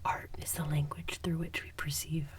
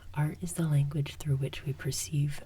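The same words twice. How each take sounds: First: The sentence is whispered without full voice. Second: The sentence is said aloud in a soft voice.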